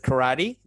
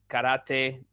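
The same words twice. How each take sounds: First: The word is said with American-style vowels. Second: The word is said with Japanese-style vowels. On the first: "the American pronunciation" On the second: "the Japanese pronunciation"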